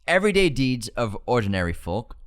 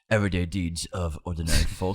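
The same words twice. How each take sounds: First: It is said in the speaker's ordinary voice. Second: It is said in a put-on wizard character voice.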